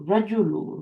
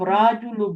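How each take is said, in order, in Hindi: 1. पहला स्वर छोटा है। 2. पहला स्वर लंबा है। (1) "रा नहीं बोलना।" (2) "आप राजुलू बोल रही हो ना"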